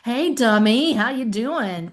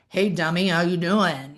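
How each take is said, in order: First: It is said in a friendly, joking tone. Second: It is said in a harsh, hostile tone.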